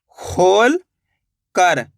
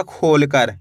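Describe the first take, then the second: First: खोल drawn out, long pause, then कर; split in two. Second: Said in the usual way. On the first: Shown as a demonstration. Teacher showing the two parts, खोल and कर sounded out apart. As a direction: read खोल and कर as separate parts. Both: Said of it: "तो मिलके बन जाएगा".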